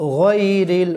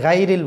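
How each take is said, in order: First: The first syllable sounds like 'goy'. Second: The first syllable sounds like 'gai'. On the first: The speaker calls it right. "বলতে হবে গয়রিল" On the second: The speaker calls it wrong. "অনেকে গাইরিল বলি, গাইরিল বললে হবে না"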